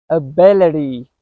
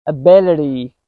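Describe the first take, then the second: No difference in how they are said.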